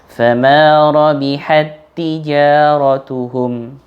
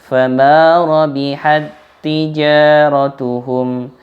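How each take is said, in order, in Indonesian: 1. Bunyi t yang bersambung dibaca pendek, langsung. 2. Bunyi t yang bersambung ditahan lama. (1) "jadi harus dibaca langsung" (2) "tidak boleh dibaca ... nggak boleh dibaca panjang seperti itu"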